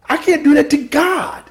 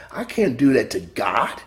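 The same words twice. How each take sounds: First: "do" much higher and louder, held out; stress on DO. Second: Said in the usual way. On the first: Shown as a demonstration. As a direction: do hoog en luid benadrukt. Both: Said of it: "You see where his emphasis was".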